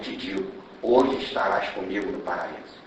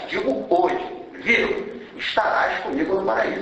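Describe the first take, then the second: First: The pause comes before the word hoje. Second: The pause comes after the word hoje.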